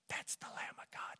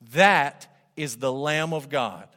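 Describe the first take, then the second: First: The phrase is whispered quietly. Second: The phrase is said aloud for everyone. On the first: Only the people close by are meant to hear. The speaker calls it wrong. "leaned over and whispered to Andrew" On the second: Everyone around is meant to hear. The speaker calls it right. "said it where everyone could hear it"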